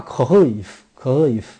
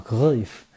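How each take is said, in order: First: 克赫伊夫 with a throaty 赫 and the jaw dropped; Dutch pronunciation. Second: 克赫伊夫 repeated calmly, the 赫 vowel like 呃; Dutch pronunciation. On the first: Teaching fans how the Dutch say Cruyff, careful demo. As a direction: say 克赫伊夫 louder, biting the vowel. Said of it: "需要咬着点儿，需要拖着点儿下巴". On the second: Repeating the Dutch Cruyff for listeners, calm demo. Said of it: "就是发呃的音啊". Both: Shown as a demonstration.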